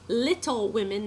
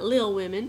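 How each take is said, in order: First: The first word is fully pronounced with two syllables. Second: The first word is reduced to one syllable. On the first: The speaker calls it right. "it's Little Women" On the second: The speaker calls it wrong. "not Lil Women"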